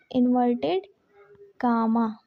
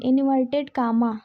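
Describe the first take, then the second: First: inverted said slowly with a pause before comma, pitch dropping; slow, split apart. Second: Said in the usual way. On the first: Shown as a demonstration. Teacher repeating the term slowly for students to copy, split apart. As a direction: spell out inverted, pause, then a low comma. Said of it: "inverted comma repeated". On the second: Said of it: "inverted / comma repeated".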